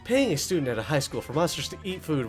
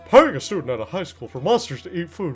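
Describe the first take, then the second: First: It is read in the speaker's ordinary voice. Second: It is read in a put-on drawling character voice.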